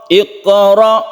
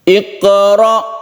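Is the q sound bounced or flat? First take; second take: bounced; bounced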